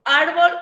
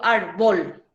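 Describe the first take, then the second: First: "árbol" with the weight on "ár"; stress on first syllable. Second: "árbol" wrongly stressed on the final "bol"; stress on last syllable. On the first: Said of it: "¿Cómo yo digo árbol?". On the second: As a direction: say "árbol" as ar-BOL, voice loaded at the end. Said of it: "la sílaba tónica de la palabra". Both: Shown as a demonstration.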